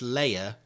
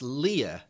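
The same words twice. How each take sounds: First: The first syllable sounds like 'lay'. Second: The first syllable sounds like 'lee'. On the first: "as in layer cake" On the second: "as in King Leia"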